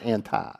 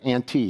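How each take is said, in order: First: It is said like the word anti. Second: It is said like the word ante. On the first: The group was against the creed. The speaker calls it wrong. "not anti" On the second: The group came before the creed. The speaker calls it right. "They were before the Nicene Creed"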